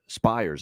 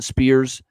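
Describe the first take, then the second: First: The name is said with the vowel of 'fires'. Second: The name is said with the vowel of 'fears'. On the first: The speaker calls it right. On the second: The speaker calls it wrong.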